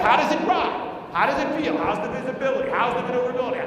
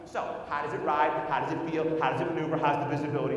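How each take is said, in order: First: Bursting out. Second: Said in the usual way. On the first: Retold or imitated. Husband breaking the silence to his wife, bursting out. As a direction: blurt them out loudly after holding back. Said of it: "The silence was killing me". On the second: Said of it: "ask the typical questions".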